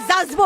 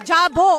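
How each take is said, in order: First: It is said in a Bangladeshi accent. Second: It is said in an Indian Bengali accent. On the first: "Bangladeshi में" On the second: "Bengali हमेशा जाएगा"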